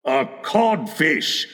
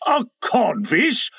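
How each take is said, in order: First: Slow, deliberate insult; drawn-out verdict; taunting reply. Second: Slow, higher question; drawn-out puzzled repeat, rising; blank echo. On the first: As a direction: state it slowly with a falling end. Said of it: "replied the voice". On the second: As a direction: echo it in stunned disbelief. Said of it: "Hook echoed blankly". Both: A narrator's reading.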